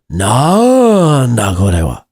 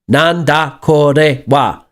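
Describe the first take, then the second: First: The first syllable nan is hit harder. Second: All syllables are even, like a machine gun. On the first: The speaker calls it right. "it sounds like you're kind of hitting the nan" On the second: The speaker calls it wrong. "it's like a machine gun. Do do do do do"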